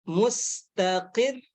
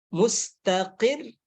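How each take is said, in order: No difference in how they are said.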